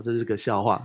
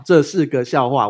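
First: Said in the usual way. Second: 这是个笑话 said again louder and slowly; emphatic repeat. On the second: Shown as a demonstration.

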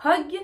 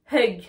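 First: Hug said "hog", rising; repeat-after-me hug as hog; O vowel. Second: Hug with "eu", louder and falling; uh vowel in hug, not o; repeat-after-me English hug. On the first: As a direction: round hug to an o. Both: Shown as a demonstration. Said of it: "Une deuxième fois".

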